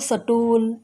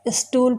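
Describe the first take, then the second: First: A vowel is inserted between 's' and 't'. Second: It starts with the cluster 'st'. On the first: The speaker calls it wrong. "Haryana क्षेत्र के लोग" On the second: The speaker calls it right. "स्टूल को"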